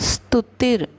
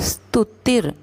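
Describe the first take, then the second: The two takes are said the same way.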